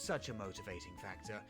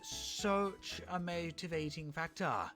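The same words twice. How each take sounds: First: It is spoken in a plain accent. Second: It is spoken in a posh accent. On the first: "without a posh accent" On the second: "I'll try saying that again without a posh accent"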